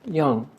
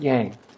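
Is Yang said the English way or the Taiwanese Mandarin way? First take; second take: Taiwanese Mandarin; English. First: It is said the Taiwanese Mandarin way. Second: It is said the English way. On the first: The speaker calls it right. "here in Taiwan, uh, we would pronounce that Yang" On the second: The speaker calls it wrong. "not Yang"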